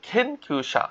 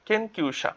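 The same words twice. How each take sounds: First: খেনকিউসা with a breathy kh at the start; খেনকিউসা, the k breathed out as kh; aspirated kh. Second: কেনকিউসা said higher and softer as a model; careful model. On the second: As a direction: present কেনকিউসা carefully to the class. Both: Shown as a demonstration. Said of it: "কেটাকে আমরা খের মতো বলতে পারি".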